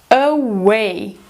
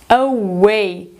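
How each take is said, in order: The two takes are said the same way.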